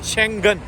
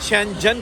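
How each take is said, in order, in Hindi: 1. बीच का व्यंजन कड़ी g की आवाज़ है। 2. बीच का व्यंजन j की आवाज़ है। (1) "गाफ बोला जाता है" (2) "बहुत सारे हमारे दोस्त जीम बोलते हैं, यानी कि शेंजन कहते हैं"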